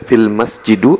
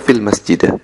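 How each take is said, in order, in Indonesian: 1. Kata terakhir diakhiri dengan vokal u. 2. Kata terakhir diakhiri dengan vokal a. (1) "tidak boleh dibaca" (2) "tidak boleh dibaca"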